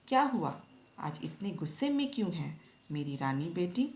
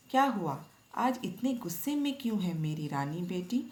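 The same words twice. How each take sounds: First: Mild loving mother. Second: A lightly voiced mother, affectionate; mild loving mother. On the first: Acted. Retelling mother soothing daughter, light affection. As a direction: lift the first words, then coax her gently. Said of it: "प्यार जताते हुए". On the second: Mother comforting upset daughter, mildly affectionate. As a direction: coax her daughter gently, a hint of affection. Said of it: "माँ ने प्यार जताते हुए कहा".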